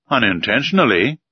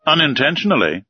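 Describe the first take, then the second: First: Said in the usual way. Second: "Unintentionally" echoed a touch higher with a falling end; voice raised a little. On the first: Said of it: "said I". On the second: A narrator's reading. Commander throws the professor's word back, voice slightly raised. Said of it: "raising his voice a little".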